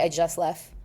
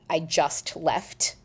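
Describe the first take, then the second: First: The t at the end of 'just' is dropped. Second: The t at the end of 'just' is pronounced. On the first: The speaker calls it right. "You say" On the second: The speaker calls it wrong. "So you don't say um"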